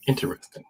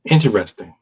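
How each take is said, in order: First: "Interesting." whispered, no voice. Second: Said in the usual way. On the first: Shown as a demonstration. Host repeating his own word to his co-host in a whisper. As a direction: breathe "Interesting." softly.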